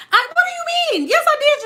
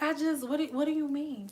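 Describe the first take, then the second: First: High-pitched, incredulous mock squeal; exasperated protest. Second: Soft, unruffled feigned innocence; cool, collected. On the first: Acted accuser protesting the denial. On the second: Acted. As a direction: play innocent in a hushed, calm voice. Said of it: "most cool and collective ass voice".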